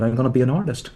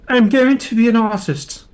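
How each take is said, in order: First: It is said firmly and decisively. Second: It is said in a posh, pretentious voice. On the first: The speaker firmly commits to a choice. "I was a decisive person. So I had that decisiveness" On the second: Others heard it as snobbish and affected. "Or as people heard it like this"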